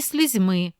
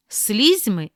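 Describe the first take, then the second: First: Слізьми as sliz-MY; last-syllable stress. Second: Слізьми as SLIZ-my; first-syllable stress. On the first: Teacher giving the other variant, final stress on слізьми. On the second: Teacher reading double-stress words, first-syllable stress on Слізьми. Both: Shown as a demonstration. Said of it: "слова із подвійним наголосом".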